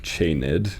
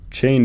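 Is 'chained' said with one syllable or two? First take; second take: two; one. First: The word is said as two syllables. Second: The word is said as one syllable.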